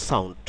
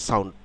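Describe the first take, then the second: Both takes have the same delivery.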